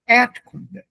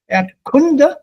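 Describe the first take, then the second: First: The stress falls on the first syllable. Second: The stress falls on a later syllable. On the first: The speaker calls it right. "accent is on the E, the first syllable" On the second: The speaker calls it wrong. "It's not"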